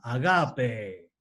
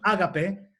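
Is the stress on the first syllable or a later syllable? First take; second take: later; first. First: The stress falls on a later syllable. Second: The stress falls on the first syllable. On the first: The speaker calls it right. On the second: The speaker calls it wrong. "no es una acentuación, de modo que no es"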